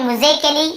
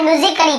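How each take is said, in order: First: "म्यूजिकली" with an AY, myu-ze-ke-lee; wrong pronunciation. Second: "म्यूजिकली" as myu-zik-lee, A unvoiced by the tongue; silent A. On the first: Teacher shows what we don't read, "म्यूजिकली" said myu-ze-ke-lee. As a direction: voice the silent A in "म्यूजिकली" as AY. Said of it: "ऐसे ए या आ या नहीं पढ़ रहे हैं". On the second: Teacher shows students the real reading, "म्यूजिकली" said myu-zik-lee. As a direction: skip the A before LLY in "म्यूजिकली". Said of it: "आप म्यूजिकली पढ़ रहे हैं". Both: Shown as a demonstration.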